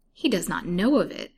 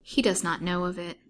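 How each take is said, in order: First: Louder, surprised repetition as a question; taken aback, querying what was heard; surprised echo. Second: Said in the usual way. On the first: A narrator's reading. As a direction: echo it in mild disbelief, leaning on KNOW. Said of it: "repeated Mister Shelton in surprise". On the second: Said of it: "said Missus Colville".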